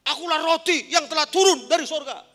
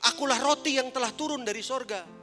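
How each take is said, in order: First: It is said loudly, as a shout. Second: It is said in a calm, normal voice.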